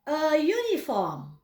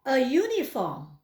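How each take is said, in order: First: A uniform said slowly, "a yuniform"; slow model pronunciation. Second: Slow repeat. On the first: Teacher models a uniform for students to repeat. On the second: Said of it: "Saya ulangi". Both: Shown as a demonstration.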